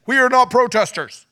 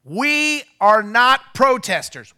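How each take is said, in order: First: "We are not protesters" shouted, weight on "not"; stress on NOT. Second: "we are not protesters" shouted slowly, weight on "we"; stress on WE. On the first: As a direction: punch "not", high and loud. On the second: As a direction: hit "we" hard, high and loud. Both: Retold or imitated. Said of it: "I said".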